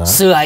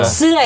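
First: "Seha" on a low tone; tone for tiger. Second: "Seha" higher, with a falling tone; tone for shirt. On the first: Thai speaker explaining the word for tiger, low tone. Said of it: "itu artinya harimau". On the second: Thai speaker explaining the word for shirt, falling tone. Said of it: "Seha itu baju". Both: Shown as a demonstration.

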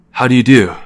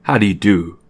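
First: Louder, higher polite greeting; raised, lively storybook reply; belated greeting. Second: Slightly husky. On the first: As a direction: answer brightly after a stunned delay. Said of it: "I replied at last". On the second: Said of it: "in a slightly husky voice". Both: A narrator's reading.

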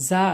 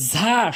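First: যা short, with a weak buzz; mispronounced যা. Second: ঝা as "zaa" with a strong buzzing z; tongue tip to teeth, whistle-buzz the z of ঝা; correct za. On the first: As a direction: say যা lightly, as in Bengali. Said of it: "ভুল উচ্চারণ". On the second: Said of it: "সঠিক উচ্চারণ". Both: Shown as a demonstration.

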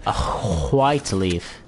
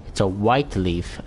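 First: "white" with a long breathy H first, hwite; exaggerated H. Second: Said in the usual way. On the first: Shown as a demonstration. Gamer playing with the name of a leaf, exaggerated H in "white". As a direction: slowly blow out the H before "white". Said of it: "emphasize the H in words". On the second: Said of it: "instead of white".

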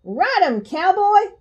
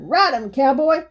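First: High-pitched story-time cheer; Elmo cheering. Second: Mild read-aloud cheer; cheering crowd. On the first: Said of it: "So I cheered". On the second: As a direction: cheer on the rider, held back a little. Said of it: "The crowd cheered". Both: A narrator's reading.

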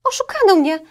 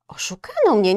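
First: Put-on high, loud girlish echo. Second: Louder wolf line; wolf stating. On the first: Girl echoing the wolf, much higher and louder. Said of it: "szepnęła dziewczynka". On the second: Acted. Wolf realising the girl is harmless, stated. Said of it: "stwierdził wilk".

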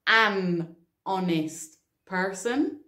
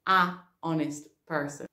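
First: Slow, deliberate AN before honest person, with pauses; AN stretched and set apart, each word spaced out; correct article example. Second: A set apart before honest, as the mistake; A honest person, lower, with a gap after A; wrong article example. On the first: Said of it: "in that case, we say". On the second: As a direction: show the wrong A, separated from honest. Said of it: "not a honest person". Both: Shown as a demonstration.

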